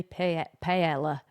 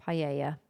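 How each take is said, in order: First: Paella with a hard L, pae-L-ah; misread paella. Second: Paella without the L, pie-AY-ah; Spanish paella. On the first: Misreading the word off the screen, spelling it out. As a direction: say paella as spelt, with a clear L sound. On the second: Correcting herself after misreading it, the proper way. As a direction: say Paella the Spanish way, a y sound for the double L. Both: Shown as a demonstration. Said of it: "That's how I read that in my head".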